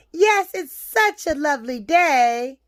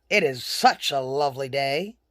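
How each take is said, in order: First: Put-on higher, polite little-girl voice. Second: Low wolf making polite small talk. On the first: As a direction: answer as a friendly child, pitched up. Little girl answers the wolf. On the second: Acted. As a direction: drop low for the courteous wolf. Wolf greets girl in story.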